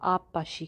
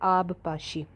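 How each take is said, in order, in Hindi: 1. b, p की दोहरी ध्वनि में मिल जाती है। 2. p से पहले b की अलग ध्वनि सुनाई देती है।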